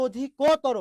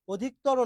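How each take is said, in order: First: অধিকতর with a held middle o, "odhi-KOO-toro"; correct pronunciation demo. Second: অধিকতর with the middle o dropped, "odhik-toro"; wrong pronunciation demo. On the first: Teacher giving the proper pronunciation, অধিকতর with full ko. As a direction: stretch the ko in অধিকতর. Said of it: "উচ্চারণটা হচ্ছে অধিকতর". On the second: Teacher showing students what not to say, অধিকতর as "odhik-toro". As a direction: run ক straight into ত in অধিকতর. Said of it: "অধিকতর না". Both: Shown as a demonstration.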